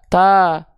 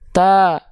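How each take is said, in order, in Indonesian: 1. Suku katanya terdengar tipis, dengan a yang jelas. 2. Suku katanya terdengar tipis, dengan a yang jelas.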